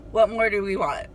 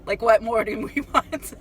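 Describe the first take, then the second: First: Said in the usual way. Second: Amused disbelief with a laugh. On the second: Retold or imitated. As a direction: laugh breaking into the words. Repeats it, breaking into laughter.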